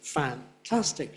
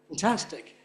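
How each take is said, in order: First: The first syllable carries a clear stress. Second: The first syllable is weak and reduced. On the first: "putting a stress on fan" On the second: "she's pronouncing it weak"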